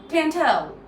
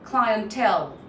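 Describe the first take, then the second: First: It is said in a British accent. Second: It is said in an American accent. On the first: "someone from the U K, and the person would say something like" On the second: "how Americans say it"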